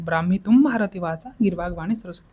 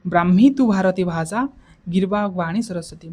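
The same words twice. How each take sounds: First: Said in the usual way. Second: The verse split in two, a rise after ଭାଷା; recited in halves. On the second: Shown as a demonstration. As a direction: recite Brahmi ତୁ ଭାରତୀ ଭାଷା, pause, then ଗିର୍ବାଗ Bani Saraswati. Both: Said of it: "ଦୁଇ ଚାରି ଥର ଯଦି କହିଦେବ".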